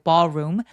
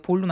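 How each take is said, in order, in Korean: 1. 첫 번째 모음은 열린 'aw' 소리예요. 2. 첫 번째 모음은 둥근 'oh' 소리예요. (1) "턱을 길게 벌려서 발음합니다" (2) "볼룸이라고 읽으시면 안 돼요"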